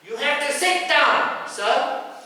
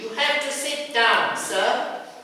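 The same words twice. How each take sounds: First: It is said more firmly, with extra force. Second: It is said mildly, without much force. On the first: The request is harder to ignore. The speaker calls it right. "You have to be a bit more forceful" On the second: The passenger may ignore the request. The speaker calls it wrong. "Sometimes you tell like this, they won't listen"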